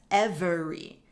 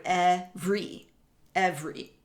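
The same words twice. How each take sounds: First: "every" as "ev-er-ee", middle E sounded; three-syllable pronunciation. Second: "every" as "ev-ree", middle E dropped; two-syllable pronunciation. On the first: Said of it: "this word subdivided in as". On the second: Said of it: "this word contains two syllables". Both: Shown as a demonstration.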